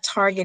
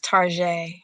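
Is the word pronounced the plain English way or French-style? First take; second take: English; French. First: It is said the plain English way, ending in -get. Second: It is said French-style, like tar-zhay. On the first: The speaker calls it wrong. "it's not Target" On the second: The speaker calls it right. "the bougie way of saying Target"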